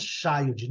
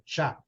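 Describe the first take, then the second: First: Put-on "child" com i no final, tchaildi; child abrasileirado. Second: Put-on "child" curto, sem vogal no final, tchaild; child correto. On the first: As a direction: diga "child" errado, como brasileiro, com i no fim. (pronúncia errada de "child" com vogal extra) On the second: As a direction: diga "child" certo, terminando seco no d. (pronúncia correta de "child" em inglês) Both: Shown as a demonstration. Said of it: "não é child".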